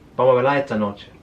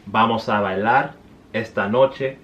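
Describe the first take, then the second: First: The final S and R are dropped, Cordobés style. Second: The final S and R are pronounced fully.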